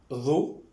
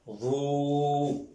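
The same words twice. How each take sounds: First: "Ro" with a brief o, rising; short vowel. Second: "Ro" with the o held long and level; long vowel. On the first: Teacher reading out the syllables, "Ro" kept short. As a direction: say "Ro" short, lifting at the end. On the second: Teacher reading out the syllables, "Ro" drawn out. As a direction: sustain the o of "Ro" on one note. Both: Shown as a demonstration. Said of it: "Je lis".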